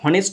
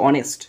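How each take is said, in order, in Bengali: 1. শব্দটি একটি স্পষ্ট h ধ্বনি দিয়ে শুরু হয়। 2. শব্দটি সরাসরি একটি স্বরধ্বনি দিয়ে শুরু হয়। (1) "এর উচ্চারণ কিন্তু হনেস্ট নয়" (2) "এর উচ্চারণ হচ্ছে অনেস্ট"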